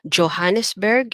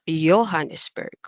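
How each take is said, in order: First: The name begins with a J sound. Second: The name begins with a Y sound.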